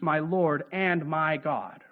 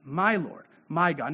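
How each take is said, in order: First: Said in the usual way. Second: "My" hit hard each time, then a falling close; stress on my. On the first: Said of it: "Not just you are God". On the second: Shown as a demonstration. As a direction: press "My" in "My Lord, my God.". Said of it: "but you are my Lord".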